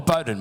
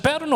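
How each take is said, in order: First: "Bowden" as BOH-den, like boat; BOH-den, long "oh" vowel in "Bowden". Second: "Bowden" as BOW-den, bow as in take a bow; BOW-den, "ow" vowel in "Bowden". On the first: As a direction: say "Bowden" with first syllable rhyming with go. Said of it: "Can I clarify that?". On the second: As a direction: say "Bowden" with first syllable rhyming with cow. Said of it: "is it Bowden or Bowden". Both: Shown as a demonstration.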